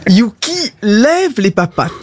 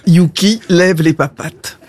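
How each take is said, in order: First: Drawn-up order to a pet; dog command. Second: Said in the usual way. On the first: Acted. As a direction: tell your dog to perform the trick. Owner gives dog a command.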